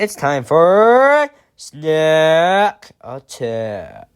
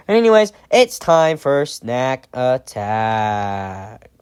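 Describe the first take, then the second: First: Slow, drawn-out announcer intro; news reporter voice. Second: Said in the usual way. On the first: Shown as a demonstration. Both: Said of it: "I sound like a news reporter when I say that".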